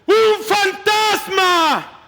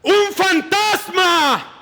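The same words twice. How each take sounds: First: High, slow panicked cry; terrified shout. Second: High, slow frightened cry; terrified shout. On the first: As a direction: drag out the scream as the fear takes hold. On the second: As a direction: scream it out like terrified sailors seeing a ghost. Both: Acted. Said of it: "Llenos de miedo, gritaron".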